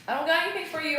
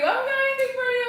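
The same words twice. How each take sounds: First: High-pitched voice to a pet; pet talk. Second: Very high, loud, fast squeal; squealed pet talk. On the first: Telling the dog there's no treat, pet talk. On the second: Apologizing to the dog for no treat, squealed pet talk. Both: Real, not acted.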